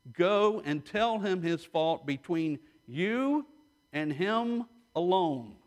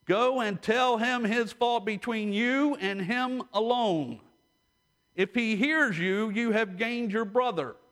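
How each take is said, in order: First: Said in the usual way. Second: Verse read higher with weight on each phrase; with emphasis. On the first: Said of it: "Let me say that again". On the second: Shown as a demonstration. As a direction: lean into the verse, stress every step. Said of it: "with a little bit of emphasis".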